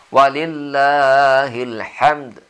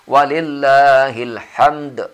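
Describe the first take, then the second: First: The final d has a small, light bounce. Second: The final d has a strong, heavy bounce. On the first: The speaker calls it right. "qalqalahnya cukup qalqalah saghir" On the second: The speaker calls it wrong. "tidak usah terlalu tebal"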